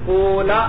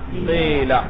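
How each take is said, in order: First: The first vowel is a long u sound. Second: The first vowel is a plain i sound. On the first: "वाव को साकिन कर दो" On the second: "कसरे की वजह से इसको किससे बदल दिया"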